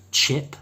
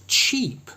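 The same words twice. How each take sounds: First: "Chip" with a short, relaxed I. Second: "cheap" with a long, tense ee. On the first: Teacher reading a minimal pair, short I sound. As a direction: keep the vowel in "Chip" short, never ee. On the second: Teacher reading a minimal pair, long E sound. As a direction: stretch the vowel in "cheap" to a full ee. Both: Shown as a demonstration. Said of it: "one with a long E and one with a short".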